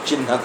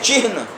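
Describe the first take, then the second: First: The h sound comes after the n. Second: The h sound comes before the n. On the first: The speaker calls it wrong. "उच्चारण हो रहा है भ्रमवश चिन्ह का" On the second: The speaker calls it right. "पहले हा है आधा, उसके बाद न है"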